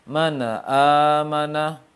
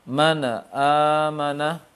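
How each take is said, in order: Both takes have the same delivery.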